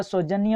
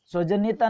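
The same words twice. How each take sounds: First: सौजन्य ending in "nya"; no final taa. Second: सौजन्यता ending in "taa"; added taa. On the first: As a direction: say सौजन्य as sau-jan-ya. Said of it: "सौजन्य होता है". (सौजन्य पर रुकें, बिना "ता") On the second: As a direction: say सौजन्यता as sau-jan-ya-TAA. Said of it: "सौजन्यता नहीं होता". (सौजन्यता के अंत में "ता" जोड़ें) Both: Shown as a demonstration.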